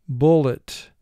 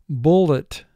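No difference in how they are said.

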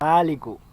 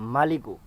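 First: The first vowel after m is drawn out long. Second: The first vowel after m is kept short. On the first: "মিমের মধ্যে টান দিয়ে এবং কাফে পেশ দিয়ে" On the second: "মিমের মধ্যে টান ছাড়া এবং কাফে পেশ দিয়ে"

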